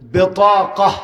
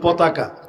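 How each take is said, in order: First: The word begins with a B sound. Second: The word begins with a P sound. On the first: The speaker calls it right. "এটা সহি আরবি হচ্ছে বেতাকা" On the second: The speaker calls it wrong. "সুই না শিখে ফেলায়"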